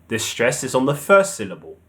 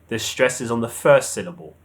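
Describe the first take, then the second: The two takes are said the same way.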